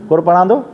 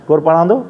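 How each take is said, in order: Both takes have the same delivery.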